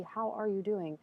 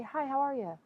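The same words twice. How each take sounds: First: Genuinely asking, caring; sincere ask. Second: Breezy, higher, throwaway greeting; perfunctory greeting. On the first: Asking a friend she truly cares about, sincerely. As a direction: ask it like you really want to know. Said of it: "I would ask you really". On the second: Casual passerby greeting said out of habit, breezily. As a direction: toss it off without caring. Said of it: "But if I just say". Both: Shown as a demonstration.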